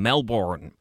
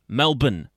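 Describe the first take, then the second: First: It is said in an American accent. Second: It is said in an Australian accent.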